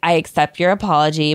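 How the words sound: It is said in a flat, monotone voice. The speaker calls it right.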